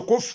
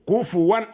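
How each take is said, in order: First: The fa is silent, with no vowel. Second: The fa carries a u vowel. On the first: The speaker calls it wrong. "ما تقولش كف، ما تسكنش الفاء" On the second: The speaker calls it right. "الفاء عليها ضمه"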